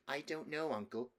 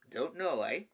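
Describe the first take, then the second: First: Put-on higher-pitched, unsure young nephew; little boy. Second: Put-on raised, louder echo of a child's answer; patronising uncle's retort; tiresome grown-up talk. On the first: Small nephew answering his uncle the king, little boy voice. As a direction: answer as a small child would. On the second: A narrator's reading. King throwing his nephew's answer back, tiresome grown-up talk. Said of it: "talking in the tiresome way".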